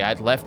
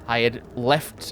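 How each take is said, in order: First: The word had is contracted to d. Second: The word had is said in full.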